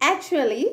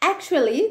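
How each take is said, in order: The two takes are said the same way.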